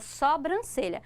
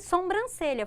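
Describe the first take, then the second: First: No m sound is added after the first o. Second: An m sound is added after the first o. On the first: This is the standard form. The speaker calls it right. "então é sobrancelha" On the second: This is how most people say it in speech. The speaker calls it wrong. "noventa por cento das pessoas falam sobrancelha"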